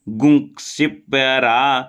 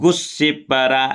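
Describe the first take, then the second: First: A quick nasal gum is followed by ksh. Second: It is said as gus with a double s. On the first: "यहाँ गुं जल्दी बोलना है" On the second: "ऐसा भी बोल देते"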